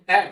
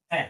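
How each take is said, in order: First: "ए" held as a long vowel. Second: "ए" cut to a short vowel. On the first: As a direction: draw out "ए" for pupils. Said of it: "वो long आ रहा है". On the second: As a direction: say a brief "ए". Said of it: "short sound आएगा". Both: Shown as a demonstration.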